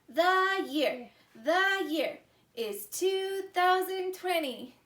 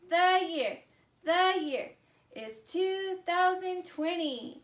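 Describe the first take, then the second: No difference in how they are said.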